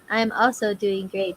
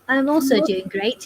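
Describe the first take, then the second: First: It is said in her normal accent. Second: It is said in a put-on English accent.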